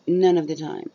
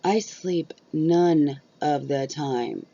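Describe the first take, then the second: First: Louder, "None" punched at the start; repeated for emphasis. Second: Very slow, "none" leaned on hard; stress on none. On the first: Repeating her point to viewers, louder and insistent. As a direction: hit "None" hard and let the rest fall. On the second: Correcting the lazy label, slow and emphatic. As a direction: drag out "I sleep none of the time" with weight on "none". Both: Real, not acted.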